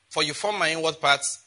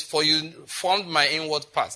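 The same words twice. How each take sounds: First: Said in the usual way. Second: Unhurried scripture line with weight on formed; slowed down. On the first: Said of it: "That is why nothing is strange". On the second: Shown as a demonstration. Preacher slowing down to read the verse to the church. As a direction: read slowly, leaning on formed. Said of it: "let me slow down in verse thirteen".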